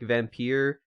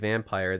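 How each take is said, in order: First: The word gets an older-style pronunciation. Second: The word gets its ordinary everyday pronunciation. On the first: "the old like pronunciation is like Vampire" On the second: "you can also just say it Vampire"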